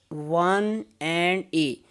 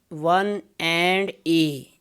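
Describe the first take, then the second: The two takes are said the same way.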